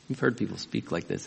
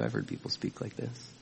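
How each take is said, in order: First: Said in the usual way. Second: A whispered confession; whispered aside. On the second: Real, not acted. Preacher whispering to the congregation, confiding. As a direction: lean in and whisper it to them.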